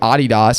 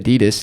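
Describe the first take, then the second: First: It is said the Australian way. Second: It is said the usual American way.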